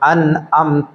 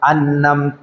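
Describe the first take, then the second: First: A glottal stop is said before amta. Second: An n sound is said before amta. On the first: "ഹംസ കൊടുത്ത് ഓതുന്ന" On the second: "ഈ നൂനിന്റെ ശബ്ദത്തോട് കൂടെ"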